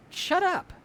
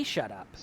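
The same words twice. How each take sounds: First: Put-on a much higher, yelled "Shut up." like a scared kid snapping; kid yelling back. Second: "Shut up." said lower and softer, steady and unbothered; calm firm dismissal. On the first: Kevin turns on the scary basement radiator and yells. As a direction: fire "Shut up." at the monster in a high yell. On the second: Shown as a demonstration. Speaker coaching listeners to dismiss their cravings, low and calm. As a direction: quietly tell the craving "Shut up." and mean it. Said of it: "we can say".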